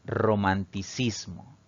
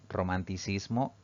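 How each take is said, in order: First: Romanticismo drawn out slowly, each syllable clear; slow, deliberate answer. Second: Said in the usual way. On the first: Shown as a demonstration. Teacher revealing the answer to students, slow and deliberate. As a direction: spell out romanticismo slowly for the class. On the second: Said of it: "es una palabra que no es esdrújula".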